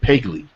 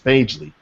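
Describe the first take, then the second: First: The first vowel sounds like in 'peg'. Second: The first vowel sounds like in 'page'. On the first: The speaker calls it wrong. "my wife pronounces it Pegly" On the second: The speaker calls it right. "I have to correct her all the time. It's Pagely"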